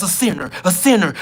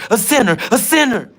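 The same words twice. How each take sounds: First: Sing-song taunt. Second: Chanted a sinner, a sinner, higher and louder; louder taunt. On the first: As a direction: tease him like a playground bully. Taunting chant at him. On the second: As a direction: jeer it at the top of the taunt. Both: Acted.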